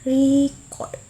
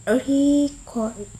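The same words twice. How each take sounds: First: Record with the stressed syllable drawn out; record, demonstrated with clear word stress. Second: Record said slowly, stressed syllable held, then falling; record in two drawn-out syllables, falling at the end; contrasting stress on record. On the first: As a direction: say record slowly, leaning hard on its stressed syllable. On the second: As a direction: say record as a stress demo, ending on a fall. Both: Shown as a demonstration. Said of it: "has stress like this".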